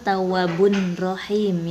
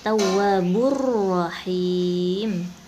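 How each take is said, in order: First: The n sound is pronounced before the r. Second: The n sound merges into the following r. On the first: The speaker calls it wrong. "bukan tawwabun rahim ya" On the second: The speaker calls it right. "dileburkan, diidghamkan ke huruf ra"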